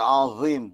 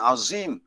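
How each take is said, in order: First: The z is a blunt, thick emphatic sound. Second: The z is a sharp, plain English-like z. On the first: The speaker calls it right. "Za tu jangan ditajamkan" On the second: The speaker calls it wrong. "Bukan azim"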